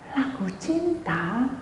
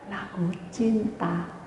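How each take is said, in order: First: Lagu cinta drawn out slowly and rising; slow rising repeat. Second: Lagu cinta drawn out slowly and falling; slow reveal. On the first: Pastor repeats to the congregation in slow disbelief. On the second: Pastor reveals the TV played love songs, slow and falling. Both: Shown as a demonstration.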